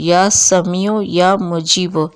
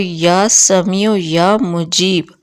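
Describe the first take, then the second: First: The last word ends with a short vowel. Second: The last word ends on a consonant. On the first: It is a recitation that continues. "इसी तरह" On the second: It is the final recitation. "आखिरी जो इकतालीस वाला फिगर आए"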